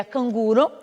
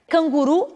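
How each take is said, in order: First: Canguro stressed on GU, ending in o; Spanish pronunciation. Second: Canguru stressed on final RU; Portuguese pronunciation. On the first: Teacher giving the Spanish word, stress on GU. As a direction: hit GU in canguro. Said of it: "em espanhol seria". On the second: Teacher giving the Portuguese word, final stress. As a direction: land hard on RU in Canguru. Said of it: "em português". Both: Shown as a demonstration.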